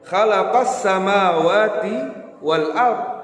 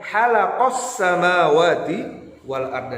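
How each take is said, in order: First: The first sound is a rough, scraping 'kh'. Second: The first sound is a soft, breathy 'h'. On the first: The speaker calls it right. "seharusnya dengan huruf kha" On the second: The speaker calls it wrong. "membacanya dengan huruf ha"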